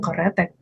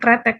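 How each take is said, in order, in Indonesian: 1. Sebuah vokal pendek memisahkan k dan r. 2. K dan r menyatu tanpa vokal. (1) "dalam written harusnya memang keretek" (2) "spoken language kita kretek"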